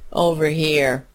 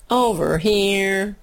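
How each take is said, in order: First: Said in the usual way. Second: Slow, drawn-out singsong call; sing-song call. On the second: Shown as a demonstration. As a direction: call it out like a chant. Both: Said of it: "the thought processes that just went on in my head".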